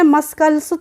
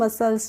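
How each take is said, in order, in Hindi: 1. c की आवाज़ k जैसी होती है। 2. c चुप है, उसमें k की आवाज़ नहीं है। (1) "तो नहीं पढ़ा है" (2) "इसको हम पढ़ते हैं मसल्स"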